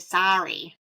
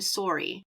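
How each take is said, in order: First: It is said with an American pronunciation. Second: It is said with a Canadian pronunciation. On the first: "in the United States, we say sorry" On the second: "you said"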